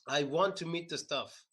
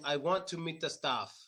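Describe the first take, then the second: First: The last vowel is short and barely open. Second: The last vowel is said with the mouth open. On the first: The speaker calls it wrong. "a lot of Russians I notice when they try to say staff, it sounds like they're saying stuff because they don't open their mouths enough" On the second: The speaker calls it right. "Instead of saying"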